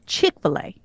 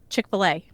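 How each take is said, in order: First: It has a Southern stress on another syllable. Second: It has the ordinary non-Southern stress pattern. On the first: "people from the South go to Chick-fil-A" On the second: "I go to Chick-fil-A"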